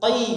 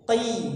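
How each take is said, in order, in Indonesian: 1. Suku kata itu ditekan terlalu kuat. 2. Suku kata itu dilepaskan dengan lembut dan ringan. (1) "jangan terlalu ditekan ... Jadi jangan qi" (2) "lembut dalam mengucapkannya"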